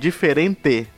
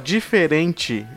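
First: Said in the Paraná-like accent, with 'de'. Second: Said in the speakers' own accent, with 'di'.

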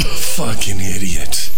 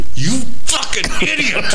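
First: The phrase is said in a sad tone. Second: The phrase is said in a mad tone. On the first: "You're sad" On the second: "Now you're mad"

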